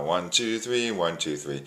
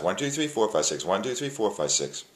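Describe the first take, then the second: First: Steady waltz count, leaning on each beat; slow waltz count. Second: Quick count to six; twice as fast count. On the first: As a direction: count slowly in three, lilting. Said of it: "which is slow". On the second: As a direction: rattle off one to six briskly. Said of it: "more like twice as fast". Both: Shown as a demonstration.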